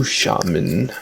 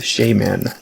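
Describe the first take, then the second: First: Said in the usual way. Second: "shaman" said as SHAY-man; own quirky pronunciation. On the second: Shown as a demonstration. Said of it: "as I like to pronounce that word".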